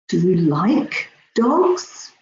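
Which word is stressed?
like. The stress falls on the word like. The speaker is surprised by the liking. "I'm really surprised"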